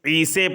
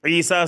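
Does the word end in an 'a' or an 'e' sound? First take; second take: e; a. First: The final vowel is bent to an e sound. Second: The final vowel is an open a sound.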